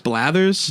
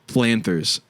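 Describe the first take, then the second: First: The name has no n sound inside. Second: The name has an extra n sound inside. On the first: The speaker calls it right. "it's Blathers" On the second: The speaker calls it wrong. "I've been saying it wrong this whole time"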